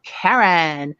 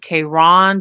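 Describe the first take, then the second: First: It sounds just like the name Karen. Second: It does not sound like the name Karen. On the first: This is how the speaker would rather say it. "why not call it Karen?" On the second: This is how some other people say it. "Some pronounce it Caron"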